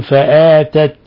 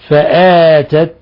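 The two takes are said the same way.

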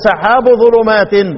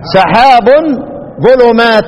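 First: The first word ends without an added n sound. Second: The first word ends with an added n sound. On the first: The clouds belong to the darknesses. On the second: The clouds and the darknesses are separate.

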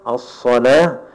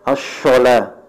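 First: The consonant is a hissing s sound. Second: The consonant is a hushing sh sound. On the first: The speaker calls it right. "kalau antum baca huruf sad, as-salah" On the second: The speaker calls it wrong. "jangan as-shalah"

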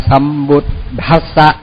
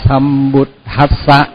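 The two takes are said the same way.

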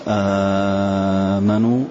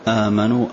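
First: The opening long vowel is held very long. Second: The opening long vowel is held medium length. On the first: "مد" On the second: "توسط"

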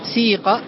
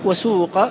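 First: The vowel after the s is a pure i. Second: The vowel after the s is a pure u. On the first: "بإخلاص الكسر" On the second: "بإخلاص الضم"

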